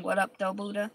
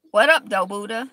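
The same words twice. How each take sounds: First: Said in the usual way. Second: Loud casual holler to Buddha; calling out. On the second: Real, not acted. Greeting the Buddha, a loud playful call. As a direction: shout a greeting at the statue.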